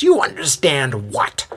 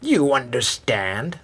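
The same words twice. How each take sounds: First: Raspy question rising in pitch and force; heated raspy demand; escalating. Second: Slow, held-back raspy question; simmering raspy challenge; raspy disbelief. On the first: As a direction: build to an indignant final word. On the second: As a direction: draw it out slowly, before the outburst. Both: A narrator's reading. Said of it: "the voice escalates".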